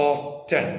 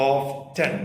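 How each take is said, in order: The two takes are said the same way.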